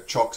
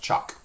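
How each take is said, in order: First: "choc" said as chawk; rounded-vowel variant. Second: "choc" said as chahk; open-vowel variant. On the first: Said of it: "sometimes a choc". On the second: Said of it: "sometimes pronounced choc". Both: Shown as a demonstration.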